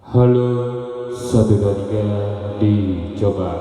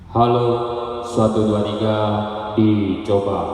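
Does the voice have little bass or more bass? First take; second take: more bass; little bass. First: The voice sounds fuller with noticeable bass. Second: The voice sounds thin with little bass. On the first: "Kalau tidak ditekan, suara bassnya ada" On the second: "Kita high frequency-nya pas bisa kita tekan"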